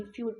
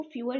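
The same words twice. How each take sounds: First: "फ्यूर" as one syllable, fyoor; fewer without schwa. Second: "फ्यूअर" in two syllables, few-er; fewer with schwa. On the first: Teacher reading the unfinished strokes, one-syllable "फ्यूर". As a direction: run the u straight into r in "फ्यूर". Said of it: "फ्यूर पढ़ेंगे". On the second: Teacher saying what these strokes don't read, two-syllable "फ्यूअर". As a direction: put a short uh before the r in "फ्यूअर". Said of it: "इसको फ्यूअर नहीं पढ़ेंगे". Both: Shown as a demonstration.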